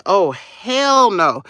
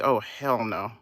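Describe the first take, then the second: First: Loud, slow, drawn-out imitation of outraged customers; hammed-up indignant refusal, louder and higher; emphatic mock outrage. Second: Low, soft imitation of disgruntled customers; understated mimicked refusal, low and soft; low-key mock disbelief. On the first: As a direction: imitate their refusal big, stretching HELL. Voices the waiting customers' reaction, bigger. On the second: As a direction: imitate their refusal under your breath. Voices the waiting customers' reaction.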